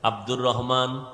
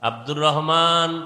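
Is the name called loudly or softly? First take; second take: softly; loudly. First: The name is called out softly. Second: The name is called out loudly. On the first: "এও আসতে বলছে" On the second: "এ যখন জোরে বলল"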